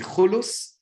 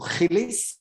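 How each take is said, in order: First: Both vowels are oo sounds. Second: Both vowels are ee sounds. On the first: This is the Egyptian Judeo-Arabic form. "uu in uh, in Egyptian Judeo-Arabic" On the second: This is the standard Egyptian Arabic form. "ee in standard Egyptian Arabic"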